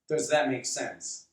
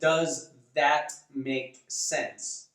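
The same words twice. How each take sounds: First: The words are run together and reduced. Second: Each word is carefully and fully pronounced. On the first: The speaker calls it right. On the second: The speaker calls it wrong.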